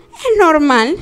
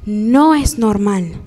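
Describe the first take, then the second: First: Rising, as if it were obvious; mock conclusion. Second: Slow, lower, NO pressed down hard; firm correction. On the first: Speaker voicing a hurt child's reasoning, rising. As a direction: voice the faulty logic lightly. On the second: Speaker correcting the listeners, slow and firm. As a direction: deny it slowly and firmly. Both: Shown as a demonstration.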